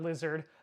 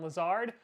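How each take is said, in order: First: The name sounds like the word 'lizard'. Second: The name does not sound like 'lizard'. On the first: The speaker calls it wrong. "Not lizard" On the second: The speaker calls it right. "I said it right this time"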